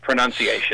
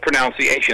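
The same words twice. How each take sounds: First: The second syllable sounds like 'nun'. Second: The second syllable sounds like 'noun'. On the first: The speaker calls it right. "It's pronunciation" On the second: The speaker calls it wrong. "That's just not a word"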